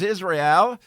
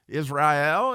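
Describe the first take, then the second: First: It is said with a plain English pronunciation. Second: It is said with a Hebrew pronunciation.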